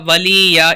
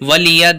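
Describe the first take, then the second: First: The vowels are drawn out long. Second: The vowels are kept short. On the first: The speaker calls it wrong. "बहुत से लोग गलती करें, इधर भी खींचते हैं" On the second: The speaker calls it right. "यहाँ पर खींचेंगे नहीं"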